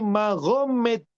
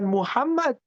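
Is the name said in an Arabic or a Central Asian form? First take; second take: Central Asian; Arabic. First: The name is said as Mahomet, a non-Arabic form. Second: The name is said as Muhammad, the Arabic form. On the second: "logatnya bukan Muhammad"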